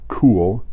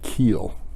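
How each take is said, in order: First: The name is said with an 'oo' vowel. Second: The name is said with an 'ee' vowel.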